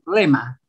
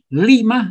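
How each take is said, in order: First: The first vowel sounds like e. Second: The first vowel sounds like i. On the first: "dicen lema" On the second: "en lugar de decir lima"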